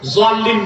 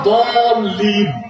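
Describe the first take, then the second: First: The word begins with a z sound. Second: The word begins with a d sound. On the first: The speaker calls it wrong. "জোয়াল্লিন না" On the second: The speaker calls it right. "আসলে উচ্চারণটা দলিন"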